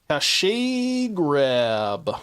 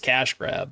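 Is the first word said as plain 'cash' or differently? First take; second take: differently; plain cash. First: The first word is not said as plain 'cash'. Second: The first word is said as plain 'cash'. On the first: The speaker calls it wrong. "Why do I pronounce it like that? Just the troll" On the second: The speaker calls it right. "I know it's cash grab"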